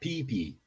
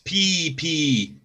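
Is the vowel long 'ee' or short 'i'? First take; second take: short i; long ee. First: The vowels are short, like 'i'. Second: The vowels are long, like 'ee'. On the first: It is the character's name. The speaker calls it right. "we pronounce it with a short I" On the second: It sounds like the word for urine. The speaker calls it wrong. "Not pee pee"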